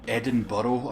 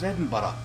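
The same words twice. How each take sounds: First: It is said with an outsider's pronunciation. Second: It is said with the local pronunciation. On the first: The speaker calls it wrong. "when I hear someone say" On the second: The speaker calls it right. "no, it's Edinburgh"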